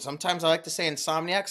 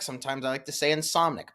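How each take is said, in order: First: "Insomniac" ending in a clear "-ee-ack"; "Insomniac" pronounced in full, ending "ack"; full pronunciation. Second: "Insomnic" cut to three syllables, in-SOM-nik; "Insomnic" as an easy, shortened "-nik" ending; incorrect pronunciation. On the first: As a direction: say "Insomniac" with all four syllables, in-SOM-nee-ack. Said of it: "The way I pronounce Insomniac". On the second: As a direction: say "Insomnic" without the "ee-a" before the final k. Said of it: "very incorrect pronunciation of the word". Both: Shown as a demonstration.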